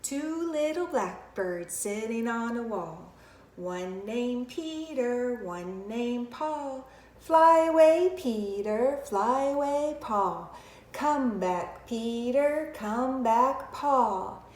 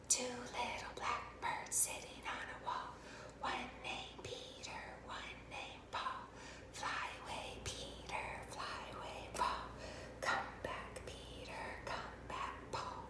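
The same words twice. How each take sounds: First: Slow finger-play chant; measured nursery rhyme in a talking voice; inside voice. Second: Slow whispered finger-play rhyme; hushed nursery chant, all breath. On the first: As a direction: chant it slowly for young children. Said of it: "We're gonna start here to our inside voice". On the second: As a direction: whisper the rhyme very softly to children. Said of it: "we're gonna use our whisper voice". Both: Shown as a demonstration.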